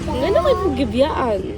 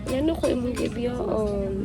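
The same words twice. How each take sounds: First: The line is said in a sarcastic tone. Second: The line is said in a sad tone. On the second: "Tapos sad, sad"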